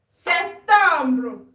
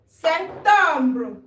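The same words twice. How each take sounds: Both takes have the same delivery.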